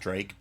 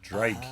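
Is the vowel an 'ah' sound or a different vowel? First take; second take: different; ah. First: The vowel is not an ah sound. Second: The vowel is an open ah sound. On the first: The speaker calls it wrong. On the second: The speaker calls it right. "you got to pronounce it Drake. ... The A is an ah"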